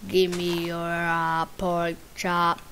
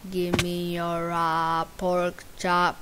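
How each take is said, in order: Both takes have the same delivery.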